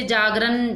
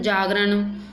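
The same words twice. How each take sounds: First: जागरण ending in plain "n"; dental n. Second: जागरण ending in curled-tongue "ṇ"; retroflex n. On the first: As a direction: finish जागरण with tongue on the teeth, "jaagran". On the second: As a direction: curl the tongue back for the last sound of जागरण. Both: Shown as a demonstration. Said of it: "नए और अनय संबंधी".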